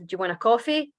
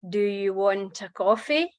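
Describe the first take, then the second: First: It is said quickly, with words run together. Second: It is said slowly, with words kept apart. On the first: "instead of" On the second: "but just more slowly"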